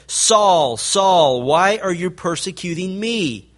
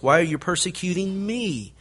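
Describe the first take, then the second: First: A distant, louder heavenly voice calling down. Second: Said in the usual way. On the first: Retold or imitated. The voice from heaven calls to Saul on the road, louder and distant. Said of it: "and a voice said". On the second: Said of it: "booming voice".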